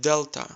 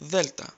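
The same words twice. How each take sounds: First: The word begins with a D sound. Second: The word begins with a TH sound. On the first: "You've heard it like Delta" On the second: "Replace D with T H and say Delta"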